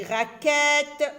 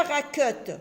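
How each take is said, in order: First: RAQUETTE with a clear, drawn-out "è" in the second syllable; correct open vowel. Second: RAQUETTE with an "eu" sound in the second syllable, "ra-keute"; wrong vowel demo. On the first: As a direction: stretch RAQUETTE as "ra-kèèt", open E. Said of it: "je dis raquette". (dire RAQUETTE avec un « è » bien appuyé : « rakète ») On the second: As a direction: say RAQUETTE as if the E had no accent, "ra-keut". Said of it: "Je ne dis pas raquette". (dire RAQUETTE avec le son « eu » : « rakeute ») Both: Shown as a demonstration.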